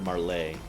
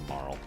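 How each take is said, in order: First: The name is said with two syllables. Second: The name is said with one syllable. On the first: "I've also heard Marley" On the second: "I prefer Marl"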